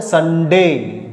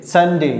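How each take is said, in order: First: संडे with a hard, drawn-out डे; hard day sound. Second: संडे with the ई said quickly; quick final e. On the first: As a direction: stretch संडे slowly with a hard डे. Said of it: "आप लोग कैसे बोलते हैं?". (संडे धीरे और डे पर ज़ोर से) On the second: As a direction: clip the end of संडे short. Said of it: "ई जो लगाएंगे उसको जल्दी बोल देंगे". (संडे में ई जल्दी बोलिए) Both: Shown as a demonstration.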